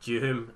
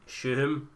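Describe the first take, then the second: First: The name starts with a D sound. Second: The name starts without a D sound. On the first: "Do you like pronounce the D" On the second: "is it like a silent D, like Shuhum"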